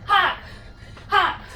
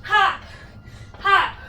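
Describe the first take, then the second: No difference in how they are said.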